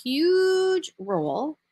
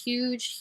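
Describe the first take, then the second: First: Huge drawn out, much higher and slow; stress on huge. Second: Said in the usual way. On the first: Real, not acted. Coach stressing to listeners how huge trust is, drawn-out high emphasis. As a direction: lean hard on the last huge.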